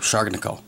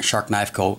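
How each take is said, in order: First: The name is run together as one word. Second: The name is said as three separate words. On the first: This is the maker's own way of saying it. "He pronounces it a different way" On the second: This is how most people say it. "most people pronounce it"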